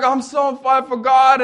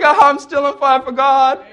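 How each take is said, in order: First: Lightly voiced eager girl, a bit higher; a hint of a beaming believer; chirpy homeschool girl. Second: Higher and louder, insistently cheerful; a hint of a beaming girl who won't be hushed; chirpy homeschool girl. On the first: The homeschool girl gushing about faith, light cheerful voice. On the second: The girl refusing to calm down, light insistent voice. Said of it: "And they're like".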